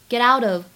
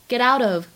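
No difference in how they are said.

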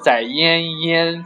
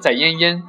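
First: It is said with a long trailing ending. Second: It is said crisply with a short ending.

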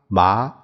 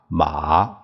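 First: The syllable is said with the second tone. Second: The syllable is said with the third tone. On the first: "这一二三四声" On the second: "这一二三四声"

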